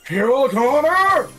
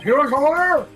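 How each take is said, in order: First: The name is yelled at normal speed. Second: The name is yelled quickly.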